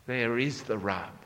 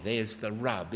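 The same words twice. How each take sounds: First: "is" lengthened and leaned on, falling; stress on IS. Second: Said in the usual way. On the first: Shown as a demonstration. Preacher restating the point, weight on "is". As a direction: press on "is" to drive home the point.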